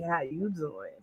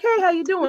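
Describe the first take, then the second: First: It is said in an unfriendly tone. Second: It is said in a friendly tone.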